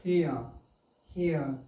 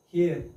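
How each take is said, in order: First: "Here" as hee-uh, no r; silent r. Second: "Here" with the final r sounded; wrong pronunciation. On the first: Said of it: "Or remain silent". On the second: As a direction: say "Here" the mistaken way, voicing the r. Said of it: "but it is not here". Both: Shown as a demonstration.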